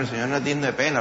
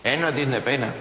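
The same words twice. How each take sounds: First: Said in the usual way. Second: No said firmly on its own beat; firm restatement. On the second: Shown as a demonstration. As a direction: press the word no.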